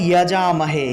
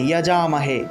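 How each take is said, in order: The two takes are said the same way.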